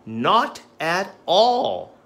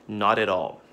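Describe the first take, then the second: First: Slow, loud "Not at all"; slow emphatic. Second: Said in the usual way. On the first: Shown as a demonstration. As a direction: draw it out firmly. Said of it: "flashcard drill demo". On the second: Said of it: "learn this expression".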